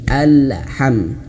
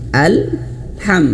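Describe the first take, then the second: First: The L sound bounces before the H. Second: The L is held and flows into H. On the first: The speaker calls it wrong. "tidak sengaja memantulkan huruf lam ini" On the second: The speaker calls it right. "jadi caranya alham"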